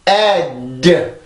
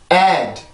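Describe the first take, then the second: First: The final d is long and forceful. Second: The final d is soft and weak. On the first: The speaker calls it wrong. "목에서 새롭게 공기를 꺼내서 ad, ad 이렇게 소리를 길게 만드는 게 아니라" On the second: The speaker calls it right. "소리를 약하게 꺼내면서 소리를 마무리를 지어주시면 돼요"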